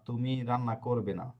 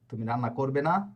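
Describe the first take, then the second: First: It is said with a plain statement intonation. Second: It is said with a questioning intonation. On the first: The speaker states that you will not cook. "এটা হচ্ছে normal" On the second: The speaker asks whether you will not cook. "প্রশ্ন"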